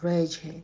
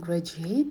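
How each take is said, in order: First: The stress falls on the first syllable. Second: The stress falls on a later syllable. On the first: The speaker calls it right. "ударение падает на первый слог" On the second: The speaker calls it wrong. "Не graduate, не уходите дальше"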